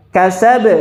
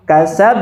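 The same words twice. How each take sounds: First: "Kasab" with the b cut off straight away; quick "Kasab" with no hold on the b; plain stop. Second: "Kasab" with a brief hold before the final b; "Kasab" with a doubled, held final b; paused for tasydid. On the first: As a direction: say "Kasab" and stop at once, no pause before the b. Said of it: "Langsung, kasab". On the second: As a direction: hold the b of "Kasab" a moment, then release it. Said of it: "jadi dijeda dulu". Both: Shown as a demonstration.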